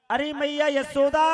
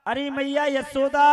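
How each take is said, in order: First: Louder and higher call, rising at the end. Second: Calling out to the house, raised voice. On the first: Uddhav calls Yashoda again, louder call. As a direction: shout her name much harder this time. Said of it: "जोर से आवाज लगाई". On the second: Uddhav calls for Yashoda, calling out. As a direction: call her name across the palace. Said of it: "आवाज लगाई". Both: Acted.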